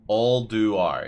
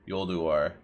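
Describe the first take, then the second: First: The name starts with a vowel sound. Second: The name starts with a y sound. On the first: "that's how you pronounce it" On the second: "I've always pronounced it Yolduar"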